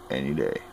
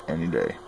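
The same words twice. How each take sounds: The two takes are said the same way.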